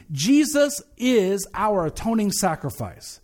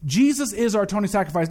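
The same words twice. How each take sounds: First: "Jesus is our atoning sacrifice" slow, each phrase set apart; emphatic key statement. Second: Said in the usual way. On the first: Real, not acted. Pastor announces today's theme, "Jesus is our atoning sacrifice" slow and deliberate. The thing we're gonna address today is this.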